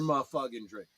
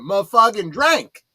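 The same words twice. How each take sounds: First: It is said in the speaker's normal accent. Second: It is said in an imitated, put-on accent. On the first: The speaker calls it wrong. "I didn't say that with the right accent" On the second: The speaker calls it right. "That's that's how you said it"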